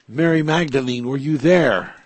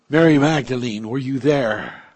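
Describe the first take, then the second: The two takes are said the same way.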